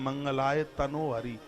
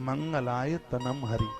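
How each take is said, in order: First: The middle word ends in an 'o' vowel. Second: The middle word ends in an 'm' sound. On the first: The speaker calls it wrong. "जो पूरा का पूरा गलत है बिल्कुल" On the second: The speaker calls it right. "ना के ऊपर बिंदु है"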